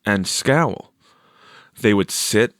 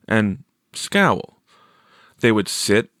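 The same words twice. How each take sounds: The two takes are said the same way.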